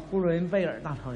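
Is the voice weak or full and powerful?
weak. It is said in a weak, thin voice.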